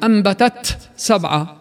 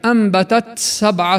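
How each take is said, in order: First: The t is fully whispered with a break. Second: The t's whisper flows into the s unbroken. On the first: The speaker calls it wrong. "ولا هي همس كامل" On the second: The speaker calls it right. "بل بين"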